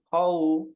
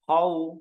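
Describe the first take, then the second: Both takes have the same delivery.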